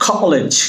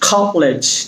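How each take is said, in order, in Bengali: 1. প্রথম k ধ্বনিতে বাতাসের ফুঁ আছে। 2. প্রথম k ধ্বনিতে বাতাসের ফুঁ আছে।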